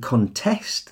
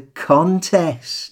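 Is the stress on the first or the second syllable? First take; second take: second; first. First: The stress is on the second syllable. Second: The stress is on the first syllable. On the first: It is a verb: to disagree with or dispute something. "depending on which syllable you stress, can function as either a noun or a verb" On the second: It is a noun: a competition. "But it's not a contest"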